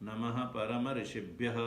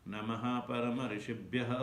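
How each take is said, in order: The two takes are said the same way.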